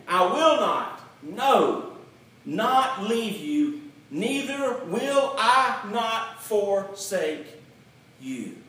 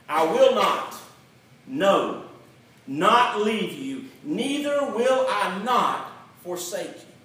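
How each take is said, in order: First: Slower, each "not" weighed and stretched; slower emphatic reread. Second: Loud stress on each "not" and "no"; emphatic literal reading. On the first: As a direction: drag out "not leave you" and "not forsake" deliberately. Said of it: "Let me read that again". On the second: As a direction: read "I will not, no, not leave you" hitting every negative. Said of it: "this is what it would sound like". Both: Shown as a demonstration.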